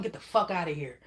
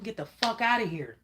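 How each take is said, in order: First: Firm, fairly even "Get the fuck outta here"; blunt dismissal. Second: "Get the fuck outta here" pitched higher and pushed harder; nasty version. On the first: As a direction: tell them off without raising the voice. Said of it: "Tell 'em". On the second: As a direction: get nasty with them, mock tough. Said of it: "if you gotta get nasty with 'em". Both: Pretend.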